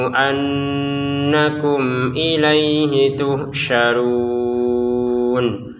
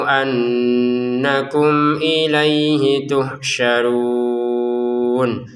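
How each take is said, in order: The two takes are said the same way.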